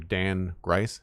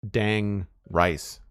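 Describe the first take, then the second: First: The G sound starts the second word. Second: The G sound ends the first word. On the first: This is the name as intended. The speaker calls it right. "as opposed to Dan Grice" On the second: The name was misread without capitals. The speaker calls it wrong. "I was calling calling him Dang Rice"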